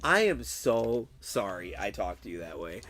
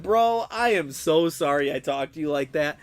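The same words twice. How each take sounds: First: Low-pitched, subdued apology; retold contrite apology. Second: Emphatic apology, leaning on "so sorry"; retold apology. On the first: Streamer calls his friend afterwards, low contrite apology. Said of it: "kind of embarrassed". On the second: Streamer retells apologizing to his friend, emphatic apology. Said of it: "I had to apologize to him".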